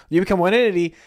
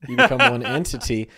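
First: Higher and louder, stress on entity; emphatic repeat. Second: Said in the usual way. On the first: Shown as a demonstration. Repeating the joke to cohost, higher and louder. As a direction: land hard on entity.

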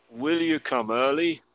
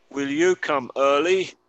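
First: Said in the usual way. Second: Slow question. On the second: Shown as a demonstration. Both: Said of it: "escuchar la pronunciación".

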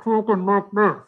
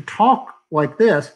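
First: Muffled as if through a mask. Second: Said in the usual way. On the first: Shown as a demonstration. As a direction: speak with a mask pressed on the face. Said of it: "a space for you to talk like this". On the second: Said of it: "instead of talking like this".

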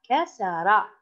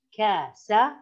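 First: Said in the usual way. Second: كسر broken into three syllables, ka, sa, ra. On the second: Shown as a demonstration. Teacher demonstrating a word to pupils, كسر said syllable by syllable. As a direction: separate each short vowel of كسر with small gaps.

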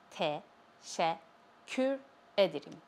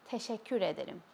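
First: Slow "Teşekkür", split as te, şek, kür, with clear pauses; syllable by syllable. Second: Said in the usual way. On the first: Shown as a demonstration. Teacher showing learners how to say "Teşekkür ederim", slowly syllable by syllable. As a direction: break "Teşekkür" into separate syllables, then say "ederim".

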